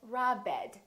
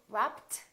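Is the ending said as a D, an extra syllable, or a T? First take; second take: extra syllable; T. First: The ending is said as an extra syllable. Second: The ending is said as a T sound. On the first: "we don't say robbed" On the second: "this one is not a T"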